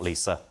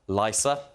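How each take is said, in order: First: The middle consonant is a hissing s sound. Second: The middle consonant is a buzzing z sound. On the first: The speaker calls it wrong. "not Lisa, like Simpson" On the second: The speaker calls it right. "it is Lysa, like Manelli"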